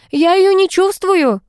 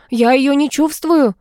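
First: The familiar screaming in panic, stressing её; frantic yell. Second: The familiar in panic, leaning on чувствую; panicked yell. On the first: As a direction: stress on её, much higher and louder slow scream. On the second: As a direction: yell чувствую hardest, dragging it out slowly. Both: A narrator's reading. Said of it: "заорал фамильяр".

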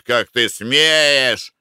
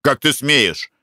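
First: "как ты смеешь" drawn out slowly, stress on смеешь; mocking echo. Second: "Как ты смеешь?" snapped back, stress on ты; indignant retort. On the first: Attendant mimics the guest's "как ты смеешь", slow and scornful. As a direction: throw his words back at him with scorn. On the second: Guest snaps indignantly at the attendant: "Как ты смеешь?" stressed on ты. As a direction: bristle with offended pride on ты. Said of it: "вскинулся на него Веденеев". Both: A narrator's reading.

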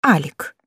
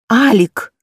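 First: Breathed out with a hoarse moan. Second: Calling the name out louder. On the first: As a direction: sigh the name, hoarse and moaning. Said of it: "выдыхаю с сиплым стоном". (сиплый стон) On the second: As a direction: raise the voice on the name. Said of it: "повторяю громче". (громче, настойчиво) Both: Acted.

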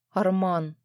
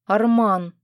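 First: Said in the usual way. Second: A sudden, louder cry of the name; exclaiming. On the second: Acted. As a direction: stop him with his name, loud. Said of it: "вскликнула я". (вскрикнуть «Арман!» громко)

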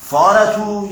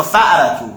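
First: فارتو said with a long plain a, no glottal stop; فارتو, the alef way, no catch in the throat; فارتو with no hamza; without the hamza. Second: فأرتو with a clear glottal stop after the f; فأرتو, stop the throat sharply before the a; فأرتو said the hamza way. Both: Shown as a demonstration. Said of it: "یعنی با همزه میگه یا با الف میگه".

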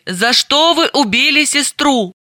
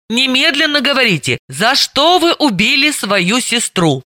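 First: Said in the usual way. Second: Ordered. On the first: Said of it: "Тогда расскажите". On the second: Acted. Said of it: "приказала Далила".

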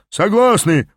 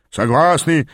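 First: Higher, mildly roared agreement; group roar. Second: Higher echo of a roar, more restrained; echoing agreement. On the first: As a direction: roar it lightly, as a crowd agreeing. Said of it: "проревели вейгасцы". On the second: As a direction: repeat it like an echo. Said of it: "повторили словно эхо тахойцы". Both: A narrator's reading.

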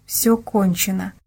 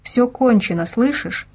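First: Slow, subdued repetition; disbelieving echo. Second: Higher, lightly urgent reassurance; called out. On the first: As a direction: repeat it slowly, not believing it. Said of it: "не поверила своим словам". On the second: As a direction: make her hear it, without really shouting. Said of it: "прокричал Дима". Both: A narrator's reading.

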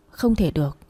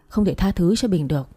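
First: Breathless unvoiced whisper to herself. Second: Said in the usual way. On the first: A woman refusing to forgive, whispering to herself. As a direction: drop it to a bare whisper. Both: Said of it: "tự nhủ".

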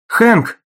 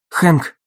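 First: High, loud cry of terror; terrified scream. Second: Calling his name louder into the phone; urgent call. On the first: Dagny hears only silence from Hank, terrified scream. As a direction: scream his name in panic. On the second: Dagny calls Hank on the silent line, urgent call. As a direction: call out to get an answer. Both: A narrator's reading. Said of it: "в ужасе закричала Дагни".

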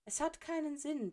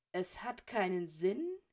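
First: Put-on higher, breezy dismissal from the old headmaster; Dumbledore, calm. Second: Slow, disbelieving repeat ending in a rise; incredulous echo. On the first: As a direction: toss it off lightly, pitched up. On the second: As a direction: throw his words back at him, slowly. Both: A narrator's reading.

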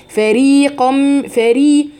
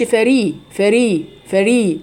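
First: Chanted فري with a full, long ee after ر; إتمام كسرة الراء. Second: فري with a slack, incomplete ee after ر; كسرة ناقصة. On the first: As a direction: hold the kasra of فري clearly, very slowly. (فري بكسرة تامة ممدودة) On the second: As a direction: cut the kasra of فري short as the mistake. (فري بكسرة غير تامة) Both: Shown as a demonstration. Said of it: "انا كده ما اتمتش كسرة الراء".

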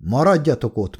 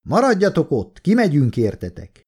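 First: Mildly mocking repeat; understated derisive echo; scornful echo. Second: Lightly projected authoritative shout; mildly raised commanding voice; older officer's call. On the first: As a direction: quote the order back with a snort of contempt. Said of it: "Kólya felhorkant". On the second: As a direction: call out with senior authority, pitch raised at first. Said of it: "Most egy új hang kiáltott, öregebb, tekintélyesebb". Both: A narrator's reading.

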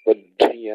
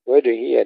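First: وجهي with the ج held, no bounce; wrong held jeem. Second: وجهي with a quick qalqala echo on ج; bouncing jeem. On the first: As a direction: freeze the ج in وجهي. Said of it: "لا نقول وجهي كما يقرأ كثير". (وجهي بإمساك الجيم خطأ) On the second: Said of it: "وجهي لله قلقلة". (قلقلة الجيم في وجهي) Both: Shown as a demonstration.

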